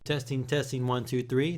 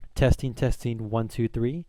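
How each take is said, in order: First: The voice sounds clearer and more detailed. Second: The voice sounds somewhat muffled and less detailed. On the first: "this guy's gonna out trump all of them" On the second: "They're not as muffled as the Razer Man-O-War"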